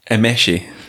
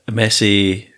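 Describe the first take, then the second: First: The s is said as an sh sound. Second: The s is said as a plain s sound. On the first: The speaker calls it right. "the S on its own is a sh sound" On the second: The speaker calls it wrong. "not with the right pronunciation"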